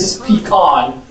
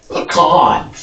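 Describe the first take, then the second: First: "pecan" as PEE-can, stressed on the first. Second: "pecan" slowly as puh-KAHN, stressed on the second; Southern pronunciation. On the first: Teacher showing the reddish-area "pecan". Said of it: "The reddish area says". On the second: Teacher insisting on the Southern "pecan". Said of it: "if you're from the South". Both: Shown as a demonstration.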